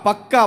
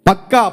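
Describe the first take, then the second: No difference in how they are said.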